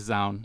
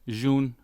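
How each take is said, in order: First: The name begins with a Z sound. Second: The name begins without a Z sound. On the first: This is how the speaker says the name. "I say Zound because of the Z" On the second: This is how the other person says the name. "you say Jun"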